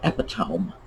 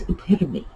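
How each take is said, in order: First: The word ends with a 'tome' sound. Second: The word does not end with a 'tome' sound. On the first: The speaker calls it wrong. "it's that tome, even though that is an English word" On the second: The speaker calls it right. "It's epitome"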